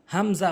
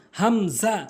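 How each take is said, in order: First: "হামজা" quick, with short syllables; wrong pronunciation. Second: "হামজা" slow, syllables drawn out; correct pronunciation. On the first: Teacher shows learners the mistake, quick "হামজা". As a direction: run "হামজা" together. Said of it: "ভুল উচ্চারণ". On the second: Teacher models the Arabic letter, slow "হামজা". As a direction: stretch "হামজা" as ham-zaa. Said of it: "সঠিক উচ্চারণ". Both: Shown as a demonstration.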